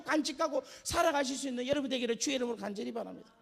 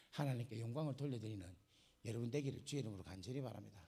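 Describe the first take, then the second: First: Loud, high, preached blessing; fervent benediction. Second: Low, quiet spoken blessing; soft benediction. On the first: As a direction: call it out over the congregation. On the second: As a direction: settle into a gentle closing blessing. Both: Real, not acted. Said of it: "repeated benediction".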